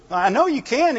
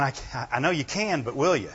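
First: "I know you can" said higher and louder, leaning on "know"; stress on know. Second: Said in the usual way. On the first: Shown as a demonstration. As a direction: hit "know" as confident belief. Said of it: "is a belief". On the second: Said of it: "he should be saying".

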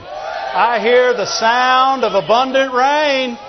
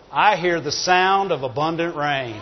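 First: Slow, drawn-out, full-voiced declaration; stretched, ringing cry of faith; preacher's proclamation. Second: Low, softer, understated declaration; low-key quote, held back; quiet confidence. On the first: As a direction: proclaim it to the whole congregation. Repeats it as loud proclamation. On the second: Retold or imitated. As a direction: say it softly, as a knowing private remark. Quiet first take, then proclaimed.

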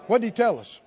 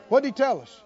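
No difference in how they are said.

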